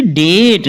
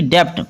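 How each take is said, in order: First: डेट with long vowel straight into T; silent B. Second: डेप्ट with the B sounded before T; गलत उच्चारण. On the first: (डेट में B silent, सीधे 'ट') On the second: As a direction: put a B or P stop before the T in डेप्ट. (डेप्ट में 'ट' से पहले 'ब' बोलकर गलत उच्चारण) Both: Shown as a demonstration. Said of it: "ना कि डेप्ट".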